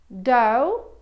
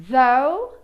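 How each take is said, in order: The two takes are said the same way.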